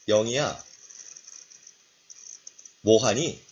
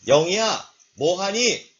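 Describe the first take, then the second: First: The phrase is said in a quiet voice. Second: The phrase is said in a loud voice. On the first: "작은 소리" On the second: "큰 소리로"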